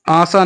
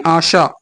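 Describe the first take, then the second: First: आशा said with s, aasa; wrong sibilant. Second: आशा said with sh, aasha; correct sibilant. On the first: Teacher rejecting an error, आशा said as aasa. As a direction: swap the sh in आशा for s. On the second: Teacher correcting students, आशा said as aasha. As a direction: give आशा its sh sound. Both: Shown as a demonstration. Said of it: "नहीं".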